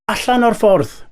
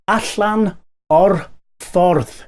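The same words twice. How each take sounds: First: The phrase is said at a normal speed. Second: The phrase is said slowly and carefully.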